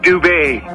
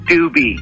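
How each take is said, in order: First: The name ends with an 'ay' sound. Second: The name ends with an 'ee' sound. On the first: This is how the first person with the name says it. "which is Dubay, and that's how he wanted it pronounced" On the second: This is a changed version meant to sound cooler. "it's pronounced Doobie"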